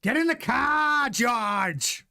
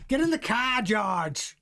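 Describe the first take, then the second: First: High-pitched, slow Austrian team-boss bark; Toto Wolff impression. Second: Lightly voiced team boss, drifting toward a pirate; a half-pirate Toto call, pitched a bit higher; Toto Wolff impression. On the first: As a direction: play the team boss ordering his driver into the car, up high and drawn out. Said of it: "do my Toto Wolff impression". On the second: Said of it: "it sounds more like Pirates of the Caribbean".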